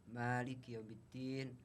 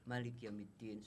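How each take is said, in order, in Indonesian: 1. Vokal pertama pada Malik dibaca panjang. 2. Vokal pertama pada Malik dibaca pendek. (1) "kadang-kadang baca dengan panjang" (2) "kadang-kadang bacalah dengan pendek"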